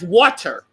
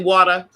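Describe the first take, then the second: First: It is said with a general American accent. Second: It is said with a Northeastern US accent.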